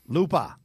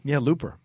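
First: The final r is dropped, in a Boston accent. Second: The final r is pronounced, in a plain accent.

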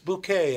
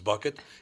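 First: The name has a French-style pronunciation. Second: The name has a plain English pronunciation.

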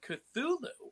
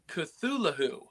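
First: The H sound is left silent. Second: The H sound is clearly pronounced. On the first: The speaker calls it wrong. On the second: The speaker calls it right.

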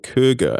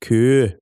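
First: The name ends with a hard g syllable. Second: The name ends without a hard g sound. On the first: The speaker calls it wrong. "I pronounced it Kurger" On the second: The speaker calls it right. "Apparently it's Kur"

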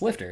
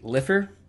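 First: The T sound in the middle is pronounced. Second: The T sound in the middle is dropped. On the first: The speaker calls it right. "It's L-I-F-T-E-R" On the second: The speaker calls it wrong. "they don't pronounce the T"

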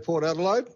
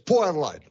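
First: The t in Port is clearly pronounced. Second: The t is dropped and the vowels merge. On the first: This is how Victorians say it. "Over here in Victoria, we might say" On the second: This is how locals say it. "the local pronunciation is"

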